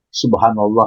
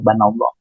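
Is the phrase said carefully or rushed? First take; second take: careful; rushed. First: Every syllable is said fully and clearly. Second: It is rushed, with the first syllables dropped.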